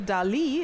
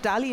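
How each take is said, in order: First: It is said like the famous painter's name. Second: It is said as a plain everyday nickname. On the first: "it will make you sound like the artist you are" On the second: "change Dali"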